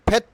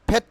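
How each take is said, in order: No difference in how they are said.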